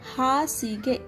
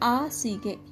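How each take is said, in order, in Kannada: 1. ಪದವು h ಶಬ್ದದಿಂದ ಪ್ರಾರಂಭವಾಗುತ್ತದೆ. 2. ಪದವು h ಶಬ್ದವಿಲ್ಲದೆ ಪ್ರಾರಂಭವಾಗುತ್ತದೆ. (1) "Hasige means bed or blanket" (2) "They say asige. There is no word called asige"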